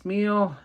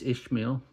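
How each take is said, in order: First: The name begins with a plain 's' sound. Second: The name begins with an 'ish' sound. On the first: "I've been pronouncing this Smil" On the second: "Maybe it's Ishmael"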